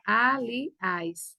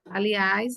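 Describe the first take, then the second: First: "Aliás" drawn out in separate syllables, ending on a stressed ÁS; syllable-by-syllable stress demo. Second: Said in the usual way. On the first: Shown as a demonstration. Teacher showing students the last syllable is tonic, "Aliás" said syllable by syllable. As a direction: break "Aliás" into A, li, ÁS to show the final stress. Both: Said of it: "A sílaba tônica é a última".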